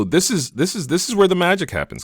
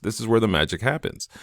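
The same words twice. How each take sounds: First: Building hype before showing the result; excited reveal. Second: Said in the usual way. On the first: Real, not acted. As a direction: pitch jumps way up on the magic line.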